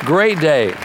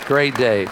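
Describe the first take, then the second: First: Emphatic preacher's exclamation; exulting. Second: Said in the usual way. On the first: Real, not acted. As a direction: proclaim it with gusto to the church. Preacher exclaims, then repeats more softly.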